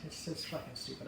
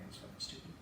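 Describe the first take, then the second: First: Said in the usual way. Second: Whispered under the breath, no voice; a quiet whispered jab at the movie. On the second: Retold or imitated. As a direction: breathe it out as a hushed aside. Repeats the line whispered.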